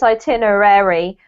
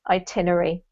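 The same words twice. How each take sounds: First: Every syllable, including the ending, is clearly pronounced. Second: The syllables are squished, dropping part of the ending. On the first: "technically it's itinerary" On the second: "we squish it all in, we forget to pronounce the last part"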